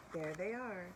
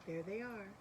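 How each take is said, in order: Both takes have the same delivery.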